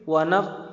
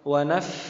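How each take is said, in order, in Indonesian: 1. Bunyi f dibuat dengan kedua bibir yang tertutup rapat. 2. Bunyi f dibuat dengan gigi atas menyentuh bibir bawah. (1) "Yang keliru itu kalau bibir ketemu bibir" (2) "Gigi atas ketemu dengan bibir bawah"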